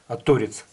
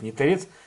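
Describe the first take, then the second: First: The stress falls on the first syllable. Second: The stress falls on the second syllable. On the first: This is how lathe operators say it. The speaker calls it right. "как токаря говорят ... торец токаря" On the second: This is how carpenters say it. The speaker calls it wrong. "не торец ... Торец говорят, наверное, плотники"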